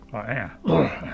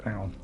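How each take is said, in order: First: Said in the usual way. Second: Low, quieter tough-guy voice; Butch voice. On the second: Acted. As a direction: drop low into a gruff Butch. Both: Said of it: "Let's get my Butch voice out".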